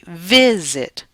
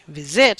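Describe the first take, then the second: First: The stress is on the first syllable. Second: The stress is on the second syllable. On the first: The speaker calls it right. "my stress is on the first syllable, so I say visit" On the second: The speaker calls it wrong. "I don't say visit"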